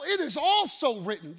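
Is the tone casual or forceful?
forceful. It sounds forceful and authoritative.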